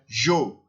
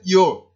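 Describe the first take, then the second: First: It begins with a 'zh' sound, Argentine style. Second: It begins with a 'y' sound.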